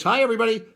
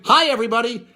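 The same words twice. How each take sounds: First: Lighter repeat of the catchphrase; mild mock slogan; imitating catchphrase. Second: Higher, louder mock catchphrase; imitating catchphrase. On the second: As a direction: toss it out like the label slogan. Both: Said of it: "with her catchphrase".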